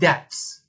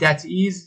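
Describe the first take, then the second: First: It is said as one contracted syllable. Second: It is said as two separate full words. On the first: "میگیم that's" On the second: "به جای اینکه بگیم that is"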